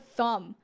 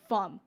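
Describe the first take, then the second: First: The word starts with a th sound. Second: The word starts with an f sound.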